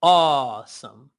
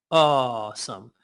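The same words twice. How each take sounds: First: Awesome stretched slowly, aw held long; slow elongated awesome; slow drawn awesome. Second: Awesome slow and lower, aw held long. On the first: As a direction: draw out awesome. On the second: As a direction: let awesome sink lower. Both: Shown as a demonstration. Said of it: "Say awesome".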